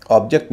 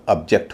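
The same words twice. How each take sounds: First: ऑब्जेक्ट with stress on the first part, OB-ject; ऑब्जेक्ट stressed on the first syllable, the wrong way for the verb; wrong stress on object. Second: ऑब्जेक्ट with a light first part and stress on JECT; ऑब्जेक्ट stressed on the second syllable, the right way for the verb; verb stress on object. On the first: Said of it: "गलत उच्चारण करवा रहे हैं". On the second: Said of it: "ऑब्जेक्ट नहीं होगा". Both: Shown as a demonstration.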